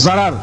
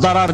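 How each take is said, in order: First: The word begins with a z sound. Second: The word begins with a d sound. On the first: This is the everyday Turkish form. "Biz Türkçe'de z ile okuyoruz" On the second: This is the original Arabic form. "Aslı darar diye geçer"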